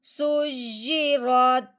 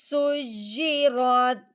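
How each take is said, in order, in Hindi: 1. यह शब्द अंतिम, रुकने वाले लहजे में पढ़ा जाता है। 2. यह शब्द अंतिम, रुकने वाले लहजे में पढ़ा जाता है।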